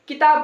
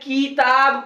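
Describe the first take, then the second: First: The first vowel is short and quick. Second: The first vowel is drawn out long. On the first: The speaker calls it right. "किताब बोलेंगे हम" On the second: The speaker calls it wrong. "किताब नहीं बोलेंगे"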